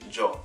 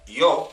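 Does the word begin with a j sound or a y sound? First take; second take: j; y. First: It begins with a sound like English j. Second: It begins with a sound like English y. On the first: "you would say" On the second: "instead of saying"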